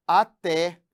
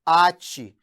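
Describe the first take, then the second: First: "até" stressed on the last syllable, a-TÉ; slow "até", weight on the open É. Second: "ate" hit loud on the first syllable, A-tchi; "ate" with a weak ending, A-tchi; stress on A. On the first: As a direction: hit TÉ in "até". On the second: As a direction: punch the A in "ate". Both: Shown as a demonstration. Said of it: "que é diferente de".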